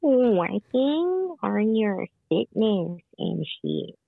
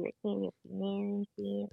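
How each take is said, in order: First: Slow, drawn-out repeat at normal volume; talking up. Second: Quick, very soft remark; barely audible. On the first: Repeating for a caller who asked to talk up, slow and clear. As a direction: spell it out slowly for someone who can't hear. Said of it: "Can you talk up?". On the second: Partner on a phone call, too soft to hear. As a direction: say it fast and very softly. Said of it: "Sorry, I can't hear you". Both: Real, not acted.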